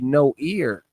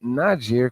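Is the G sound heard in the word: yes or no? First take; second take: no; yes. First: The word is said without a G sound. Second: The word is said with a G sound. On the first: The speaker calls it right. "It should be no ear" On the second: The speaker calls it wrong. "It's not Niger because the G is silent"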